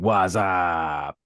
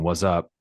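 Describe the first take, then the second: First: It is drawn out like the Budweiser commercials. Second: It is said in a plain, ordinary way.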